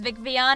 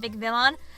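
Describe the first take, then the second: First: The name ends like the Pokemon Vivillon. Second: The name ends like the word villain. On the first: The speaker calls it right. "I really didn't know that it was VicVion" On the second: The speaker calls it wrong. "and not VicVillain"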